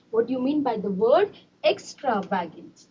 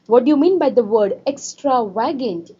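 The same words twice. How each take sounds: First: Teacher quietly repeating a question to the class; softer repeat. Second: Said in the usual way. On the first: Shown as a demonstration. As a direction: drop the voice and ask the class again.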